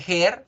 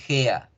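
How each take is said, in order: First: The word ends with an r sound. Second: The word ends with an a-like vowel. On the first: The speaker calls it wrong. "no se dice hair" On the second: The speaker calls it right. "se dice gea"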